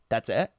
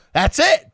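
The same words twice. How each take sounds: First: Low, soft disbelief; retold deadpan question. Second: High, loud disbelieving question; mock incredulity. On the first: Woman double-checking his one-name answer, quietly doubtful. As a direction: ask it down low, imitating her doubt. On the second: Woman reacting to his one-name answer, loudly incredulous. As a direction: imitate disbelief, pitch leaping up.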